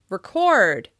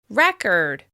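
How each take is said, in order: First: The stress is on the second syllable. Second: The stress is on the first syllable. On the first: It means capturing something in writing, video or audio. "you record it with stress on the second syllable" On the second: It names a note kept for the future. "you create a record with stress on the first syllable"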